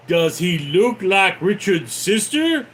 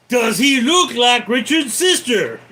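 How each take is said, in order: First: Said in the usual way. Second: Loud, high interrogation shout; raised voice, demanding an answer. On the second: Acted. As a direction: yell the question like an interrogator. Repeats film line, shouting.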